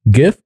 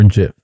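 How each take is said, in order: First: GIF with a hard g, as in gift. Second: JIF with a soft g, like a j. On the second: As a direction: say jif with a j sound. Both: Shown as a demonstration. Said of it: "is it pronounced gif or jif".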